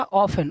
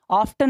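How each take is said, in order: First: ऑफन with no T at all; correct silent-T pronunciation. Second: ऑफ्टन with a sounded T; wrong pronunciation. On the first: Teacher correcting pupils' reading, silent T. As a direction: go from F straight to "en" in ऑफन. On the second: Teacher rejecting a misreading for pupils, wrong pronunciation. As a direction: say ऑफ्टन as "off-tun", T heard. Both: Shown as a demonstration. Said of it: "ऑफ्टन नहीं".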